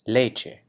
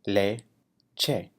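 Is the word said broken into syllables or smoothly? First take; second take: smooth; broken. First: The word is said smoothly at normal speed. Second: The word is said syllable by syllable. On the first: "saying the word in Spanish at a normal pace" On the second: "break it down into syllables"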